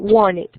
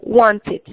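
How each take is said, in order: First: It is said in an American accent. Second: It is said in a neutral, careful accent. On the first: "Algunos en inglés americano dirían" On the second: "se pronuncia it"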